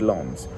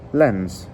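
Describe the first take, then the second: First: It is said with a French pronunciation. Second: It is said with an English pronunciation. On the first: The speaker calls it right. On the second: The speaker calls it wrong.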